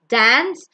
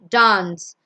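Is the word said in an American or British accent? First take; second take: American; British. First: It is said in an American accent. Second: It is said in a British accent. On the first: "The Americans pronounce it as" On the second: "The Britishers pronounce it as"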